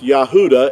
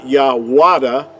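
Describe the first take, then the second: First: The middle sound is a U vowel. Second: The middle sound is a W consonant. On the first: The speaker calls it right. "it's Yahuda" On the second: The speaker calls it wrong. "See with the W, it's not"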